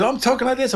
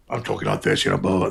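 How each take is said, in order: First: Clearly higher voice on I'm talking like this; higher pitched. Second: Lower, relaxed everyday voice; just talk in your own low register; normal low voice. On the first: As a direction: lift the whole line up high. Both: Shown as a demonstration. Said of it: "I'm more higher pitched".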